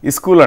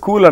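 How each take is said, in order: First: An i vowel is added before the s sound. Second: The word begins directly with the s sound.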